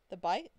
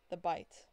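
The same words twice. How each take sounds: First: "bite" louder with a rising question; questioning echo. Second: Said in the usual way. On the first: Acted. [name] echoes the memory back, asking in disbelief.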